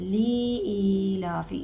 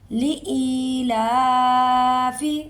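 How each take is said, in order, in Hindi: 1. पहला हिस्सा 'li' खींचकर लंबा पढ़ें। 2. पहला हिस्सा 'li' फ़ौरन ख़त्म करें। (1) "इससे लाम लंबा हो जाता है।" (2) "लाम को लाम ज़ेर ली फ़ौरन ख़त्म करना है।"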